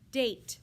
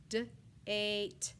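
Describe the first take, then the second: First: Said in the usual way. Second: "D-ate" split into D and a long "ate"; sounded out. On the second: Shown as a demonstration. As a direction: stretch "D-ate" apart, sound by sound.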